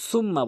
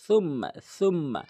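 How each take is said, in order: First: "সুম্মা" with a hissed s; common mispronunciation. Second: "সুম্মা" with th as in "think"; correct tha. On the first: Teacher shows most people's mistake, "সুম্মা" with s. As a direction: say "সুম্মা" starting with plain s. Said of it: "সিনের উচ্চারণ". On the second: Teacher models the correct "সুম্মা" with th. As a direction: start "সুম্মা" with tongue tip at the teeth. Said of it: "সার উচ্চারণ জিব্রাগা তাতে রাগা". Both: Shown as a demonstration.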